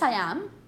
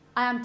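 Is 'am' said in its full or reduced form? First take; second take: full; reduced. First: The verb is said in its full form. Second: The verb is said in a reduced form. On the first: "you do pronounce the strong form" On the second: "in the middle of a sentence"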